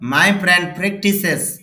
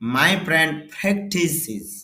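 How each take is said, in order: First: The last word ends with an s sound. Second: The last word ends with a z sound. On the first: The speaker calls it wrong. "এরকম হবে না" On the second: The speaker calls it right. "উচ্চারণটা হবে"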